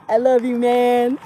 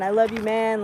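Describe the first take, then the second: First: Drawn-out, louder buddy declaration; hammed-up bro affection. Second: Said in the usual way. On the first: Showing friends how people say love casually, hammed-up affection. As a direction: stretch out a mock-hearty pal's love.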